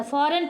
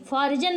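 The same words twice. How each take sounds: First: फॉरेन with no J sound; silent G. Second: फॉरिजन with G said as J; G pronounced. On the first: Teacher giving the correct reading, फॉरेन with silent G. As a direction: say फॉरेन, ending in "ren". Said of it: "फॉरेन पढ़ेंगे". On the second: Teacher showing learners the mistake, फॉरिजन with sounded G. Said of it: "फॉरिजन नहीं पढ़ेंगे". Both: Shown as a demonstration.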